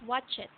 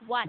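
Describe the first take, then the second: First: The ending is an extra syllable, not t. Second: The ending is a plain t sound. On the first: The speaker calls it wrong. "not watch it" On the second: The speaker calls it right. "the T sound"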